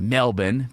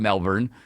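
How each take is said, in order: First: It is said with an Australian pronunciation. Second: It is said with an American pronunciation. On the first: "as the Australians say" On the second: "but we call it"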